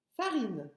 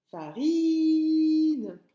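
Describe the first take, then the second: First: Said in the usual way. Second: Farine held long and high, I sung out loud; stretched I sound. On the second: Shown as a demonstration. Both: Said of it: "C'est dans la famille des I".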